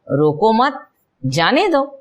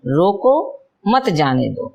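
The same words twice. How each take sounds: First: There is a pause after मत. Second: There is a pause after रोको.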